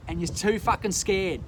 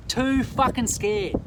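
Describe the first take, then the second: First: Said in the usual way. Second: Too fucking scared slowly, with Too hit hard; stress on Too. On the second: Real, not acted. Slow stressed Too to cowardly viewers. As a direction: lean on Too and drag it out. Repeats the accusation for emphasis.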